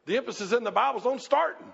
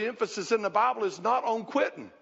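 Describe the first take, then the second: First: "starting" punched with a rising finish; stress on starting. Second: "quitting" set down with a falling close; stress on quitting. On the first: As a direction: hit "starting" and lift it as the answer. Answers with the positive counterpart. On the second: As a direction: land on "quitting" as the thing denied. Contrasts what is not emphasised. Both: Real, not acted.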